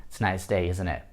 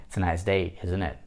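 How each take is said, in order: The two takes are said the same way.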